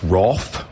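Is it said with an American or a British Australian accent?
British Australian. It is said with a British Australian pronunciation.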